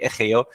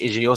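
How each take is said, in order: First: The letters are said with Spanish letter names. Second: The letters are said with French letter names. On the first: "si on prononce ça en espagnol, la lettre G, c'est G. C'est pour ça qu'on dit E G O" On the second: "normalement c'est E G O si on prononce ça en français"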